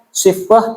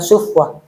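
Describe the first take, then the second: First: The first vowel is a high front i. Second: The first vowel is a rounded u. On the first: "Shadnya boleh tiga bacaan" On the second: "Shadnya boleh tiga bacaan"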